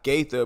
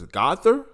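First: The first syllable sounds like 'gay'. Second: The first syllable sounds like 'go'. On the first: The speaker calls it wrong. "not Gaither" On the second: The speaker calls it right. "I think that's how you pronounce it"

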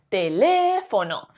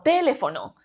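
First: The stress is on the second syllable. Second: The stress is on the first syllable. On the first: The speaker calls it right. "Si fuese le" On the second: The speaker calls it wrong. "Si la sílaba tónica de esta palabra fuese te"

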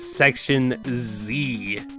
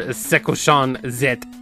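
First: It is said with plain English pronunciation. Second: It is said with Japanese-style pronunciation.

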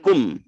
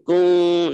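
First: The lips close tightly on the final m. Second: The final nasal is drawn out with loose lips. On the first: The speaker calls it wrong. "bukan kum ya, bukan rapat" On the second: The speaker calls it right. "Kum agak ditarik ini, kung narik ini"

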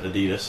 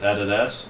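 First: It is said the American way. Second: It is said the speaker's own non-American way. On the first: "the Americans that pronounce it Adidas" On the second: "we pronounce it Adidas"

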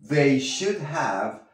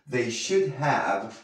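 No difference in how they are said.

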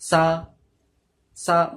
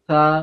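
First: The tongue stays inside, giving a hissing sound. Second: The tongue lightly touches outside, giving a lisped sound. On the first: The speaker calls it wrong. "জিপটা ভেতরে এমনি করে ঢোকাবে না" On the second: The speaker calls it right. "জিপটা বাইরে রাখবে।"

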